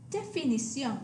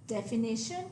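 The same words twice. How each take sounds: First: Definición ending in nee-SYON; Spanish definición, stress on the final o; Spanish pronunciation. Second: Definition ending in NISH-un; English definition with a sh sound; English pronunciation. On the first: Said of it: "accent on the O". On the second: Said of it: "the English word". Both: Shown as a demonstration.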